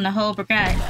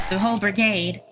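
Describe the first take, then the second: First: British-tinged slip on BRIGADE, second vowel as 'ah'; accidental British 'ah' in brigade; slipped into British. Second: Said in the usual way. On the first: Real, not acted. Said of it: "I turned British for a second". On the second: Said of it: "I don't know why I turned British".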